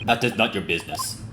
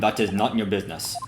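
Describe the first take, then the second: First: Quiet "That is not your business" in a lightly Russian guard voice; a hint of a Russian accent, shutting the question down. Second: Quiet "That is not your business" in a lightly Russian guard voice, stress on "is"; a hint of a Russian accent, firm refusal. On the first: Guard refusing to answer, light Russian accent. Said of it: "me voicing him is also a little bit stereotypical". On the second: Guard refusing again, light Russian accent. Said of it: "I might be trying to do their accent".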